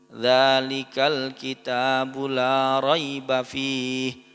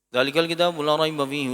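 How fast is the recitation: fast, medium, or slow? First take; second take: slow; fast. First: It is recited slowly and carefully. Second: It is recited very fast. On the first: "Temponya tidak terlalu cepat" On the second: "Kalau bisa lebih cepat lagi hadir"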